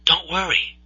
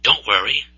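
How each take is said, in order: First: Higher and much softer, tender; gentle reassurance. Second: Said in the usual way. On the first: Acted. The Lord comforting Moses, soft tender reassurance. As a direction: soothe him like a frightened child. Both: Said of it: "The Lord's answer".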